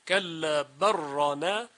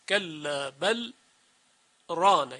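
First: The l merges fully into the following r. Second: A brief pause separates the l and the r. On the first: "بقیه قرآ ادغام کردند" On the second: "در روایت مشهور حفص سکت آورده"

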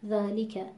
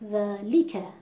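First: Every sound, including the middle l, is fully pronounced. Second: The middle l syllable is pushed with heavy stress. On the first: The speaker calls it right. "الان این رو با رعایت حق و مستحق حرف ما درست تلفظ کردیم" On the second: The speaker calls it wrong. "بخوام فشار بیارم روی حرف ل"

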